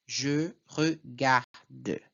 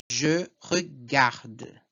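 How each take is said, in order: First: Very slow "Je regarde", each syllable apart, D released separately. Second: Slow "Je regarde", final D sounded, final E muted; pronunciation model. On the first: Teacher breaks down first person, very slow separated Je regarde. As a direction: spell out the beats: Je, re, gar, de in regarde. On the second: Teacher models first person for students, slow Je regarde with sounded D. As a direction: say Je regarde slowly, landing on gar and closing on D. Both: Shown as a demonstration. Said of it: "na primeira pessoa vai ser je".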